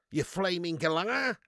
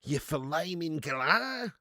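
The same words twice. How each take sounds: First: Slow, broad Australian mock insult; Aussie impression. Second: Very slow, stretched-out Australian mock insult; milk every vowel in broad Aussie; Aussie impression. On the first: Streamer jokingly insulting someone, slow Australian accent. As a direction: put on an Aussie scolding, drawn out. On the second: Streamer hamming up a joke insult, extremely drawn-out Australian accent. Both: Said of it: "Do an Aussie impression?".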